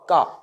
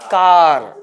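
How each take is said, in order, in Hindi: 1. यह शब्द एक दीर्घ स्वर पर समाप्त होता है, कोई r नहीं। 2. यह शब्द एक सुनाई देने वाली r ध्वनि पर समाप्त होता है। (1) "जबकि इसका उच्चारण है का" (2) "जीवन भर गलत उच्चारण करते आया, हम भारतीय इसका उच्चारण करते हैं कार"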